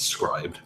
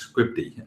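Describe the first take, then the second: First: The word ends with a d sound. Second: The word ends with an ee sound. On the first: The speaker calls it right. "someone corrected my pronunciation recently. It's- It's scribed" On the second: The speaker calls it wrong. "I've always pronounced as scripty"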